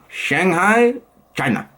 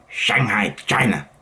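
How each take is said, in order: First: Weak attempt at a Chinese accent, city rising. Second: Lower, falling attempt at a Chinese accent. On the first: Vlogger's first failed try at Shanghai, Chinese accent. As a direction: poorly imitate a Chinese accent. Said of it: "No, that was not good". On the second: Vlogger retrying Shanghai after a bad take, Chinese accent. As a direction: imitate a Chinese accent, pitched down. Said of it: "that was better".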